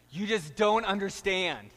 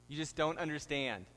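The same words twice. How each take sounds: First: Put-on louder, higher whiny teen protest; angsty teenager. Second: Said in the usual way. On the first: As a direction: whine it like a sulky teenager. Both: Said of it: "throes of adolescent angst".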